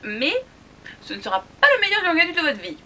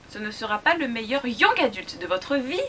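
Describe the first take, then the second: First: It is said at normal loudness. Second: It is said more softly.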